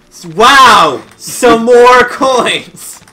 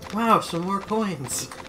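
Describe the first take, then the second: First: It sounds loud and aggressive. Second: It sounds moderately enthused.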